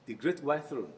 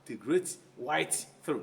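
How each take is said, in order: First: The t at the end of 'white' is dropped. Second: The t at the end of 'white' is fully pronounced. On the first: The speaker calls it right. "You drop the tar" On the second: The speaker calls it wrong.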